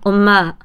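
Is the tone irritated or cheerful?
irritated. It is called in an irritated tone.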